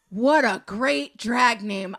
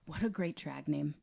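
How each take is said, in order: First: Slow, drawn-out delight. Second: Said in the usual way. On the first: Acted. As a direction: savor every word, louder. Repeats it savoring the name.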